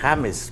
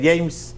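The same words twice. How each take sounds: First: It begins with a throaty H sound, Spanish style. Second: It begins with a J sound, English style. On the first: This is how the name is read as written in Spanish. The speaker calls it right. "él se llama James, porque así se escribe" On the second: This is how people in the United States say it. The speaker calls it wrong. "todo mundo lo pronuncia James"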